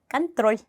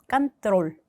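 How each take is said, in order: First: The final l sound is soft, with a y-glide. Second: The final l sound is hard, without a y-glide. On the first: "mягкий знак이 있기 때문에 짧게 이를 붙인다" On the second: "mягкий знак이 없었다면 control이 됐겠죠"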